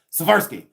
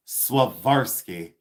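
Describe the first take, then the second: First: "Swarovski" rattled off fast, middle swallowed; quick Swarovski. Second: Swarovski drawn out slowly, every syllable spelled out. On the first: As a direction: toss off "Swarovski" in one quick breath. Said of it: "But you can say it really quick". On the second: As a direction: say "Swarovski" slow and careful, all four sounds. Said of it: "And then I just say it really quick". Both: Shown as a demonstration.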